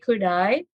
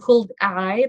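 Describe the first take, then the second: First: The L in could is silent. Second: The L in could is pronounced. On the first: The speaker calls it right. "tapi could I" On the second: The speaker calls it wrong. "Bukan could I"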